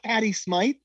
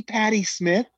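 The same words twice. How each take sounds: First: "Smythe" with a long i, rhyming with "writhe"; questioning rise on "Smythe", long i. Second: "Smith" with a short i, as in "pith". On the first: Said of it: "you said that to the [name]". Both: Shown as a demonstration.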